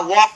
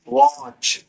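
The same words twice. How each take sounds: First: वॉक ending in a k sound; wrong k reading. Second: वॉच drawn out, higher, ending in ch; correct ch reading. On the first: Teacher showing how not to read watch, wrong k. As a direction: close वॉक on a hard k. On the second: Teacher correcting the reading of watch, clear ch. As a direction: stretch वॉच up high into a clear ch. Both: Shown as a demonstration. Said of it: "वॉक नहीं वॉच है".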